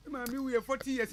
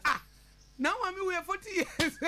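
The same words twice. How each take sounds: First: Said in the usual way. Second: Higher, slow incredulous echo; mock astonishment. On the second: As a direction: repeat it as if astonished. Astonished reaction to the same remark.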